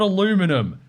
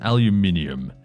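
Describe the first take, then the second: First: The word is said the American way. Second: The word is said the non-American way. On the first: The speaker calls it wrong. "It's not aluminum. Take that, Americans" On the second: The speaker calls it right. "it is aluminium"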